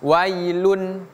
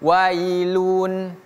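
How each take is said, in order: First: The final syllable is short and direct. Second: The final syllable is drawn out long. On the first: The speaker calls it right. "lun langsung ya, tidak panjang" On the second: The speaker calls it wrong. "tidak boleh wailun"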